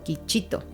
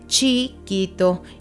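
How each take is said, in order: First: The word begins with a k sound. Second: The word begins with a ch sound. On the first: The speaker calls it wrong. "y no quichito" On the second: The speaker calls it right. "se dice chiquito"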